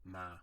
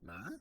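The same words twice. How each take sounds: First: The pitch stays level at a normal height. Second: The pitch rises high at the end. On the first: "this means that you say the word at your normal range" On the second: "almost like you're raising your eyebrows when you ask a question"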